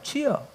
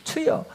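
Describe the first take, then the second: The two takes are said the same way.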